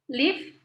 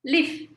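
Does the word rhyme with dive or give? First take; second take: give; give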